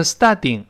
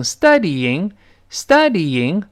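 First: "studying" squashed to two syllables, stu-ding; wrong pronunciation. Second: "studying" slow, in three syllables stu-dy-ing; correct pronunciation. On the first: Teacher shows students the mistake, "studying" as stu-ding. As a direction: drop the y sound in "studying". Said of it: "而不能读成studying". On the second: Teacher models for students, "studying" slowly as stu-dy-ing. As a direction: keep y and ing apart in "studying". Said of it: "要读成studying". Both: Shown as a demonstration.

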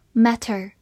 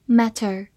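The two takes are said the same way.

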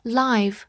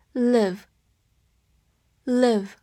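First: "live" with a long i, like "five"; adjective live. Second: "live" with a short i, like "give", said twice slowly; verb live. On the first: Teacher giving the second reading, live like five. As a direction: read "live" as the adjective, rhyming with drive. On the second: Teacher reading vocab words, live said as the verb. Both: Shown as a demonstration. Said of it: "或者读作live".

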